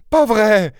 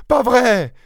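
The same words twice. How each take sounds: First: Très aigu, incrédule; n'y crois pas; exclamation incrédule. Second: Encore plus aigu et sonore; répète-le plus fort; incrédule plus fort. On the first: (épouse qui refuse d'y croire, aiguë) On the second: (épouse qui insiste, encore plus aiguë) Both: Acted. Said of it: "s'exclama-t-elle".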